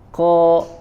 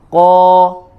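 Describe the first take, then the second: First: The consonant is released with a puff of air. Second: The consonant is released with no puff of air. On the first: The speaker calls it wrong. "jangan ko ko ya" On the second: The speaker calls it right. "Harus suaranya tidak mengeluarkan angin"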